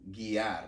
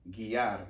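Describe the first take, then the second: The two takes are said the same way.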